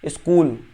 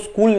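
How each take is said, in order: First: A short i vowel comes before the s. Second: The word starts directly with the s sound. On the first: This shows the influence of the regional language. "ई लगा देते हैं इसके पीछे" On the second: This is the standard pronunciation. "वो इसको स्कूल नहीं पढ़ते"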